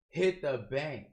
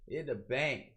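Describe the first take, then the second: First: It is projected loudly with intense emphasis. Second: It is said softly without heavy emphasis. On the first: It suits a live performance. The speaker calls it wrong. "you're gonna project... gonna be super intense" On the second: It suits recording on a condenser mic. The speaker calls it right. "you're not even emphasizing the"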